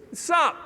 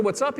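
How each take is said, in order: First: Short, higher-pitched mock greeting; lethargic kid imitation. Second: Said in the usual way. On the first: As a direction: mimic an apathetic counter kid's greeting. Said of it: "he went like this to me". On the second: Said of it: "I said".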